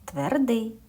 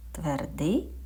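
First: Firm falling answer; answering tune. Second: Rising question, offering the choice; asking tune. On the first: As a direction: state it as the answer. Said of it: "чи м'який?". (впевнена ствердна відповідь) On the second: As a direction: ask it with a lift at the end. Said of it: "Приголосний який?". (запитальна інтонація вгору) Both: Shown as a demonstration.

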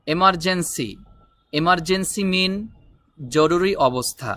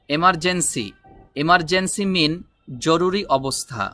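Both takes have the same delivery.

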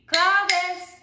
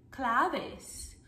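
First: Higher, louder call of the name. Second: Said in the usual way. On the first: Shown as a demonstration. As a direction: call it out for children to copy. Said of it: "as you call the name claves". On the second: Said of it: "Can you say that word".

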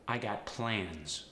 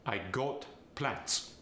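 First: Said in the usual way. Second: Plans ending in a hissed S, plants; Farsi accent. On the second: Shown as a demonstration. Coach demonstrating a Farsi accent, plans with an S. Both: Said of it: "The Z sound becomes the S sound".

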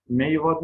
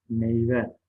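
First: "Meyve" ending in a, meyva; final e of "Meyve" turned to a; misspelt form. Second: Said in the usual way. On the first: Shown as a demonstration. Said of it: "yanlış yazılmış olan sözcüklerin". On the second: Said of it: "doğrularını yazalım".

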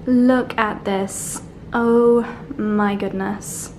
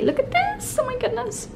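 First: Slow, drawn-out, hushed wonder; slowly marvelling at the sunset; slow awe. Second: Way up high and hushed, squeaking with delight; tiny high squeal over the bath salts. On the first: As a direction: savour each word in awe. Same words said again. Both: Real, not acted.

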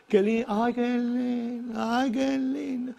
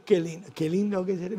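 First: Mock swooning. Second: Said in the usual way. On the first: Swooning over Miami like Rockefeller.

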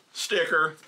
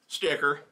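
No difference in how they are said.

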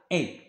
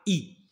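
First: إي as a thick French é, "ay"; thick kasra. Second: إي as a thin, close "ee"; thin kasra. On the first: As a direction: open إي out from "ee" to é. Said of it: "هادي كنطقها غليظة إي". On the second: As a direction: keep إي thin like an Arabic kasra. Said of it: "الكسرة كنطقها رقيقة إي". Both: Shown as a demonstration.

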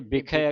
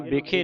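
First: ਬਿਖੈ ending in open ai, "bikhai". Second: ਬਿਖੇ ending in close e, "bikhe"; mistaken e ending. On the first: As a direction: widen the final vowel of ਬਿਖੈ. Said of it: "ਖੱਖੇ ਨੂੰ ਦੋ ਦਲਾਵਾਂ ਲੱਗੀਆਂ". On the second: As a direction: show the misreading ਬਿਖੇ as "bi-khay". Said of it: "ਇਹਨੂੰ ਬਿਖੇ ਨਹੀਂ ਪੜ੍ਹਨਾ". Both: Shown as a demonstration.

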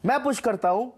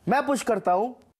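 No difference in how they are said.

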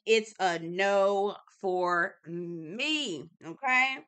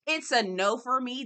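First: Very slow, stretched out no; drawn-out no. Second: Said in the usual way. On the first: Shown as a demonstration. Vlogger drags out her verdict to viewers, very slow. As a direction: drag out every word of the refusal.

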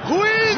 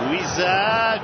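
First: Shouting the name. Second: Said in the usual way. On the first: Real, not acted. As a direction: yell the name out. (ismi haykırarak)

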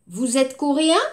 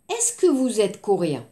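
First: Vous êtes coréen said with pitch rising at the end on coréen; rising intonation question. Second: Est-ce que vous êtes coréen said lower, falling at the end of coréen; est-ce que question, falling. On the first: Teacher repeats for students the intonation question, rising coréen. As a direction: make it a question only by lifting coréen. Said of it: "Je répète". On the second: Teacher contrasts for students the est-ce que form, falling tune. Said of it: "attention la phonétique". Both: Shown as a demonstration.

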